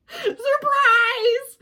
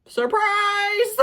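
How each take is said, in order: First: Much higher and louder, laughing mock reveal; hammed-up surprise; bigger sarcastic surprise. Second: Higher and louder mock reveal; mock surprise; sarcastic surprise. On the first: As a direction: oversell the fake shock. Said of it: "sarcastic reveal repeated". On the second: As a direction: fake astonishment, dripping sarcasm. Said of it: "sarcastic reveal". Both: Real, not acted.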